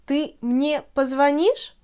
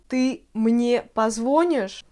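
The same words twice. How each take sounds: First: Slow, позвонишь stressed on the И; позвонишь with stress on -НИШЬ; correct stress. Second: Slow, позвонишь stressed on the O; позвонишь said pozvOnish; wrong stress. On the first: Teacher giving the right form. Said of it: "C'est позвонишь". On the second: Teacher imitating the common mistake. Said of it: "c'est pas du tout correct". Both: Shown as a demonstration.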